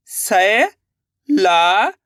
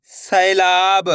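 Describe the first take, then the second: First: सैलाब stretched very slowly, rising; drawn-out sounding out. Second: Said in the usual way. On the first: Shown as a demonstration. Teacher sounding out सैलाब slowly for pupils. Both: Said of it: "अब आगे देखिए".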